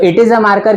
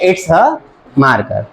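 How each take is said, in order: First: It is said as two full words. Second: It is contracted into one short syllable. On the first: "इट इज a marker की जगह" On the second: "हमने क्या use कर लिया?"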